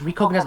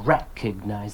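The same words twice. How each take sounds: First: The stress falls on a later syllable. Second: The stress falls on the first syllable. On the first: The speaker calls it wrong. "you said recognize" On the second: The speaker calls it right. "put that stress at the very beginning"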